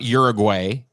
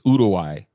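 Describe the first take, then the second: First: It is pronounced with English sounds. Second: It is pronounced with Spanish sounds. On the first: The speaker calls it wrong. "It's not Uruguay" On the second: The speaker calls it right. "it's Uruguay. That's how it's said"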